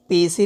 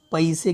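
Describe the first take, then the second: First: पैसे said with a plain e, like "pese"; teacher demos the wrong पैसे, vowel e. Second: पैसे with the diphthong ai, "paise"; teacher gives the right पैसे, ai glide; correct vowel. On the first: Teacher shows students the mistaken pronunciation, wrong vowel. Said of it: "पैसे नहीं कहते हम". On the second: Teacher shows students the correct sound, ai vowel. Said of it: "पैसे कहते हैं". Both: Shown as a demonstration.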